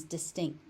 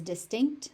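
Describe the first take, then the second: First: "distinct" ending as dis-TINK; final T dropped. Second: "distinct" ending in a released KT; final T pronounced. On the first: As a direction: let the last T of "distinct" vanish after the K. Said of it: "final T gets unaspirated into oblivion". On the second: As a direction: sound the last T of "distinct". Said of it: "if you want to pronounce it as". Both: Shown as a demonstration.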